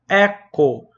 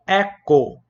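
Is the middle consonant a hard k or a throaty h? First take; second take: hard k; hard k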